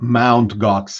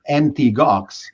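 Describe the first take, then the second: First: The first part is said as the word mount. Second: The first part is spelled out as letters. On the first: The speaker calls it wrong. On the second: The speaker calls it right.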